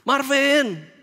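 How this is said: It sounds like an angry shout.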